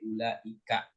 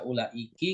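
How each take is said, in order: First: The word ends with an a vowel. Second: The word ends with an i vowel. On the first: The speaker calls it right. "tapi ulaika" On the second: The speaker calls it wrong. "nggak dibaca ulaiki"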